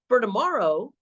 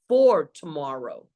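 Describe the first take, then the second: First: The first word is reduced to a 'fur' sound. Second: The first word has a full 'for' vowel. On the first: The speaker calls it wrong. "I did say fur" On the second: The speaker calls it right. "I meant to say for"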